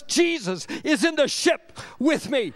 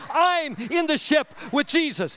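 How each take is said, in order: First: Preached with "Jesus" punched; stress on Jesus. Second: "I'm" punched in a preacher's correction; stress on I'm. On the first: Preacher assures congregation who is in the ship, stress on Jesus. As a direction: hit "Jesus" hard, then "ship with me". First take, then reworded. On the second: Preacher corrects who is in whose ship, stress on I'm. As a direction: lean hard on "I'm", then preach on. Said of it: "Or maybe I should say". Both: Real, not acted.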